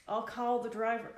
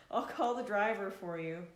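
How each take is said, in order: First: Put-on a loud, half-hearted try at a heavy Spanish accent; attempted Spanish accent. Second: Put-on giving up on the Spanish accent, laughing; laughing through the line. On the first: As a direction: push out a clumsy Spanish accent for the clerk. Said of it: "the clerk spoke in his heavy Spanish accent". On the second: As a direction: say the clerk's line while still laughing. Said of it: "Oh, I can't do an accent".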